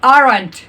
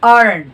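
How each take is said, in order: First: The final t sound is clearly pronounced. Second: The final t sound is dropped. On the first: "तो हम बोलते हैं आरंट" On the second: "native लोग कैसे बोलते हैं आरन"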